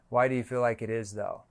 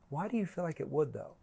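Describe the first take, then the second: First: The question is said in a flat monotone. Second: The question sounds genuinely curious and interested. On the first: The question sounds scripted. The speaker calls it wrong. "Like a regular weird monotone" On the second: The question sounds authentic. The speaker calls it right. "you have to ask that in really a curious tone"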